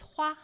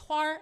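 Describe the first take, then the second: First: The word ends without an r-like sound. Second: The word ends with an r-like sound. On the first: "the word for flower is hua" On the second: "the Beijing accent is adding a lot of like er sounds"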